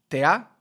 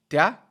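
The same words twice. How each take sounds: Both takes have the same delivery.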